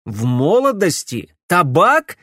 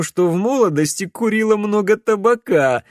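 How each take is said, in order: First: Loud, rising outrage on "молодости" and "Табак"; furious echo. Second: Higher, louder teasing suggestion, barely holding in a laugh; choking back laughter. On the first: Alex throwing Camilla's words back at her, furious. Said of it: "рассвирепел Алекс". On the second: Camilla suggesting Alex's excuse for his voice, stifling laughter. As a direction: tease him, trying not to laugh. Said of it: "давясь от смеха". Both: A narrator's reading.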